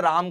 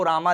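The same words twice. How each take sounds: First: Said in the usual way. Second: रामा with an added long final "aa"; anglicised reading. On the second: Shown as a demonstration. Teacher showing English spelling to students, रामा read with long final "aa". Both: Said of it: "राम को रामा लिखा जाता है".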